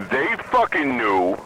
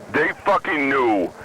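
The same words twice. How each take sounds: The two takes are said the same way.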